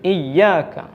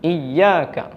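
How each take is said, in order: The two takes are said the same way.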